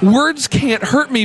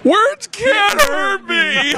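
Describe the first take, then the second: First: It is said in a plain, sincere way. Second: It is said in a sarcastic, mocking way. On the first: The statement is meant literally. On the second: The words actually do hurt.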